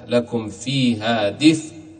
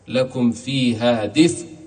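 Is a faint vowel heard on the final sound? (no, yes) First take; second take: no; no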